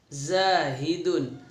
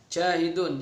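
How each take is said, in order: First: The word begins with a z sound. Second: The word begins with a j sound. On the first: The speaker calls it right. "tapi zahidun" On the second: The speaker calls it wrong. "za jangan sampai ja, jahidun jangan"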